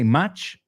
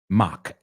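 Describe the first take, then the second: First: The word ends with a 'ch' sound. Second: The word ends with a 'k' sound. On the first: This is how Spanish speakers say it. The speaker calls it wrong. "I know in Spanish you say much" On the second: This is how English speakers say it. The speaker calls it right. "La C H es una K cuando hablamos de velocidad"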